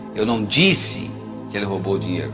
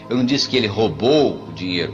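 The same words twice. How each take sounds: First: The stress is on "disse". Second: The stress is on "roubou".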